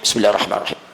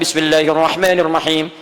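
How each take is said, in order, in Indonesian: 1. Frasa itu dibaca pelan, hampir tanpa suara. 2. Frasa itu dibaca keras dan jelas.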